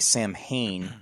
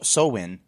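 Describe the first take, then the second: First: It is said with an M, like it is spelled. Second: It has no M and the vowel of 'glow'. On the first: "what looks like Samhain" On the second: "like glow in"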